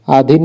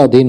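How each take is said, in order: First: अधीन with a short I, "adhin"; wrong pronunciation. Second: अधीन with a long I, "adheen"; correct pronunciation. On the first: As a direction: cut the vowel short in अधीन. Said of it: "अधीन नहीं होता". (अधीन को छोटी 'इ' से 'अधिन' बोलें) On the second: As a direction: hold the "ee" in अधीन. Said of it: "अधीन होता है". (अधीन में बड़ी 'ई' बोलें) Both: Shown as a demonstration.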